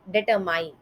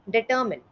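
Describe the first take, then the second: First: The last syllable sounds like 'mine'. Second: The last syllable sounds like 'min'. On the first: The speaker calls it wrong. "इसका गलत उच्चारण कुछ इस तरीके से सुनाई देता है" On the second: The speaker calls it right. "But इसका सही उच्चारण कुछ इस तरीके से है"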